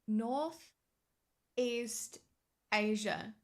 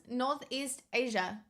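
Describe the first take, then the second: First: "Northeast" held with a rise, long pause, then "Asia." falling; slow, word by word. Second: Said in the usual way. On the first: Shown as a demonstration. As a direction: spell out "Northeast" ... "Asia." in two slow pieces.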